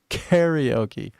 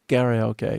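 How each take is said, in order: First: The k is said with a puff of air. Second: The k is said without a puff of air. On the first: "not karaoke" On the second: "I didn't breathe out my K. It was just a karaoke"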